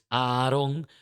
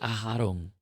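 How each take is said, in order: First: The second A is plain, with no throat sound. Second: The second A is guttural, with a throat sound. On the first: "en realidad es Aarón" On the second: "la segunda A es gutural, es Aharón"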